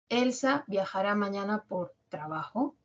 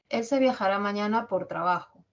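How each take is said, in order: First: The voice rises at the end. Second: The voice falls at the end. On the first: It is a yes-no question. "hacerlo ascendente" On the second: It is a statement giving information. "Esa es enunciativa. Informa. Tono bajo, descendente"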